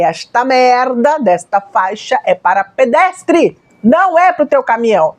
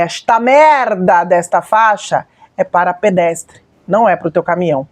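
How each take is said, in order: First: Slow, emphatic mock yell of indignation; mild retold yell. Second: Measured, emphatic telling-off, slightly lowered pitch; restrained re-enactment of an angry rebuke; retold angry scolding. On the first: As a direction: re-enact yelling at a driver without really shouting. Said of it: "E eu gritei". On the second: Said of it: "eu falei desse jeito".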